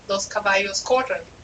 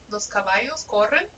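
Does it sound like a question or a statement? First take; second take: statement; question. First: It is said with statement intonation. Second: It is said with question intonation. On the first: The speaker states that the horses are running. "is this statement" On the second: The speaker asks whether the horses are running. "If I want to ask you, are the, the horses running?"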